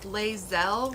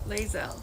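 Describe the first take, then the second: First: The stress is on the second syllable. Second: The stress is on the first syllable. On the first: "where the emphasis is on the second syllable?" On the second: "Like hazel, but with an L?"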